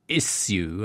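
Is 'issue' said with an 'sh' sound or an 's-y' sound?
s-y. The middle sounds like 's' followed by 'y'. American colleagues object to this pronunciation. "my American colleagues constantly berating me for saying issue"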